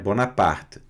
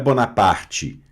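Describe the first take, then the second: First: The final e is only a faint shadow. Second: The final e is pronounced clearly and strongly. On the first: The speaker calls it right. "sem um E muito forte, ... fica uma sombrinha dele ali" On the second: The speaker calls it wrong. "Não é Bonaparte"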